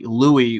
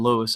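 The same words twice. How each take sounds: First: The name ends in an ee vowel, no s. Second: The name ends with an audible s sound. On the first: "as a nickname spelled L O U I E" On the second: "I've always called them Louis"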